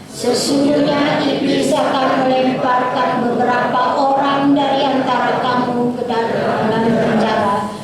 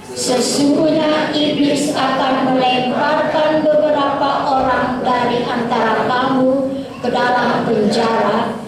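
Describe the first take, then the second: The two takes are said the same way.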